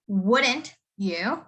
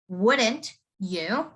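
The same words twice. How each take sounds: The two takes are said the same way.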